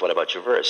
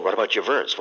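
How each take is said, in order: First: "What about your verse?" repeated with a rise on "verse"; rising repeat. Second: Said in the usual way. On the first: Retold or imitated. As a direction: press again, lifting "verse". Students pressing the dying master.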